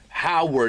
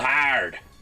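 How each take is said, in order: First: The name is said in a plain accent. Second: The name is said in a thick Pittsburgh accent. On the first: The speaker calls it wrong. "you're not saying it right" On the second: The speaker calls it right. "You gotta say it with that thick Pittsburgh accent"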